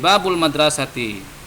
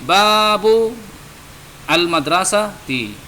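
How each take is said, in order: First: The words are linked together into one flow. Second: The words are said as separate words. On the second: "nah ini babu al madrasati"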